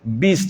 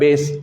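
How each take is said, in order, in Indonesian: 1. Vokalnya bunyi 'ee' yang jelas. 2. Vokalnya bunyi 'eh' yang terbuka. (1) "bis bukan bes" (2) "bukan bes"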